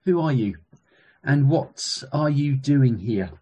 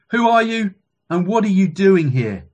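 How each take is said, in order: First: Measured, pondering question. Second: Loud, higher-pitched demand; commanding guard. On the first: Question repeated to listeners for pondering. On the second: Roman guard questions the rabbi below, loud commanding voice. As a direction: challenge an intruder with authority. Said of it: "commanded the Roman guard". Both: A narrator's reading.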